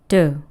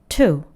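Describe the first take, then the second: First: The t is softened, sounding like a d. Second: The t is crisp with a strong puff. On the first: "do처럼 발음되죠" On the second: "to가 아니라"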